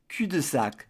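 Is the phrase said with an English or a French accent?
French. It is said with a French accent.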